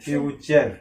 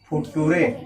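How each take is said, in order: First: It is said with a ch sound, no final vowel. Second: It is read letter by letter with a t sound. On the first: The speaker calls it right. "क्या होगा?" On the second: The speaker calls it wrong. "ये गलत है"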